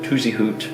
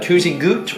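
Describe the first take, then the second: First: The second part starts with an H sound. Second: The second part starts with a hard G sound. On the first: The speaker calls it right. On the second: The speaker calls it wrong.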